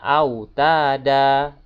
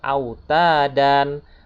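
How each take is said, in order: First: The word ends on a long vowel, no n. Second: The word ends with an n sound. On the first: The reciter stops at the end of the verse. "karena di sini mat iwat, maka dibacanya" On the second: The word is read as written, without stopping. "Kalau memang tulisannya disebut autadan"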